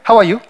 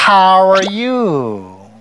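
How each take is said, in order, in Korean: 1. 각 음절이 하나씩 끊어져 나와요. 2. 모음이 길게 늘어지면서 서로 이어져요. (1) "한국 스타일이에요. 왜냐면 한국 스타일은 모음이 딱딱딱 끊어져" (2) "이렇게 길게 끄는 거예요"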